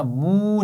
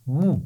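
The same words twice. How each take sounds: First: مو drawn out long, the wrong way. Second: مو short and relaxed, not stretched; correct short mu. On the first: Teacher shows children the stretched wrong مو. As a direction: stretch مو too long on purpose. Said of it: "تو اس کو لمبا نہیں کرنا". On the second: Teacher gives children the correct calm short مو. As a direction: say مو calmly and briefly. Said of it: "آرام سے پڑھیں گے". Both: Shown as a demonstration.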